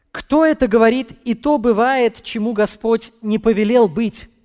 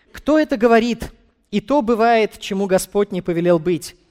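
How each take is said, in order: No difference in how they are said.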